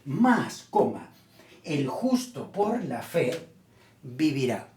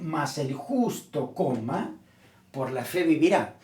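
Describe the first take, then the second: First: The break comes after the word más. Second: The break comes after the word justo. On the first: The one made righteous by faith will live. The speaker calls it right. "lo que quiere decir el apóstol es lo siguiente, más, coma, el justo por la fe vivirá" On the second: The righteous person lives by faith every day. The speaker calls it wrong. "Nosotros tendemos a ponerle una coma para decir más el justo, coma, por la fe vivirá. Y estamos leyendo mal"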